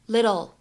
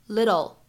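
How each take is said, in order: The two takes are said the same way.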